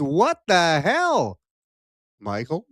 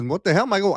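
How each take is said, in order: First: Mock outraged guest. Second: Said in the usual way. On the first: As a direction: voice the indignant guest, slowly. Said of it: "and she says". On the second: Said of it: "She says".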